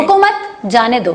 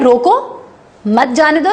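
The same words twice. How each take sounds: First: The pause comes right after 'mat'. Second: The pause comes right after 'roko'.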